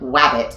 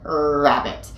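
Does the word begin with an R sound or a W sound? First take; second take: W sound; R sound. First: The first sound is a rounded-lip W. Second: The first sound is a tongue-made R. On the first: The speaker calls it wrong. "if you use your lips at all to make the R sound, you're always going to get the W" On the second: The speaker calls it right. "you pull it back, er, then you'll get that R sound"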